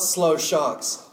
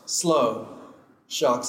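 First: The two words run together without a pause. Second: A clear pause separates the two words. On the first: The sharks themselves are slow. The speaker calls it wrong. "Not slow sharks" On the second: Drivers should slow down because sharks are playing. The speaker calls it right. "Slow. Sharks at play"

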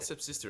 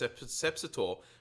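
First: The word ends with a 'sister' sound. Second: The word ends with a 'sator' sound. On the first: The speaker calls it wrong. "It's not Sepsister" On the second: The speaker calls it right. "It's Sepsator"

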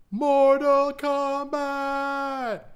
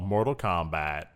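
First: The name is shouted, with a hard K. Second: The name is said plainly, at normal energy. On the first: The speaker calls it right. "You gotta really hear the K" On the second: The speaker calls it wrong. "I mispronounced that"

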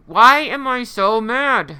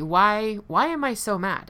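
First: It is said with an annoyed attitude. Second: It is said with a curious tone.

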